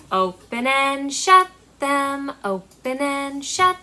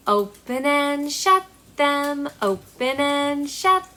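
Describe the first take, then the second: No difference in how they are said.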